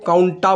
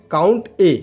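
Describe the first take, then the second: First: काउंटा said as one word ending in a; the common mistake: काउंटा, blended into one word; wrong way, run together. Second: काउंट ए with the ए as a separate letter; correct way, separate letter. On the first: Teacher showing viewers the wrong way, काउंटा run together. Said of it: "this is not the right thing". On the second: Teacher correcting viewers, काउंट ए said with a separate ए. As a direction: say काउंट, then a clear separate ए. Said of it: "इसको नहीं पढ़ना इस तरीके से". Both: Shown as a demonstration.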